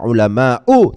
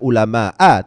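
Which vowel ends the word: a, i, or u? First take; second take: u; a. First: The word ends in an u vowel. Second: The word ends in an a vowel. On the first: The speaker calls it right. "dibaca ulama'u" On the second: The speaker calls it wrong. "tidak ulama'a"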